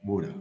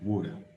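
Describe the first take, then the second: First: The middle T sounds like a D. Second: The same.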